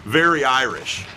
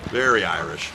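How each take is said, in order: First: Said in the usual way. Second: "Very Irish" dropped lower in a put-on voice; mock deep echo. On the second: Shown as a demonstration. Commentator echoing his own joke in a lower put-on voice.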